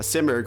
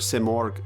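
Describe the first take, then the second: First: The word is said with an English pronunciation. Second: The word is said with a Persian pronunciation.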